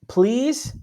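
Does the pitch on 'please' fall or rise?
rise. The pitch rises on the word. The caller is unsure and asking permission. The speaker calls it wrong. "it's not like please"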